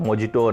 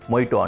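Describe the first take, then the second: First: The middle consonant is a J sound. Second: The middle consonant is an H sound. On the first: This is how the word is written. "మొజిటో అని రాస్తారు" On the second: This is how speakers actually say it. "కానీ చదవడానికి మొయిటో అంటారు"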